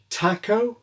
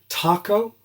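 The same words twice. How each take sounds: First: It is said with an English accent. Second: It is said with an American accent. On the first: "English style" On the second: "or American"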